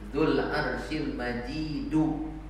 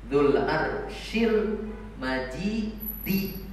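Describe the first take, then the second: First: The last word ends with an u vowel. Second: The last word ends with an i vowel. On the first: The glory describes the Lord. "Yang pertama ar-raf'u ... Kalau dibaca majidu marfu" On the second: The glory describes the throne. "dibaca majrur ... dibaca kasroh dalnya"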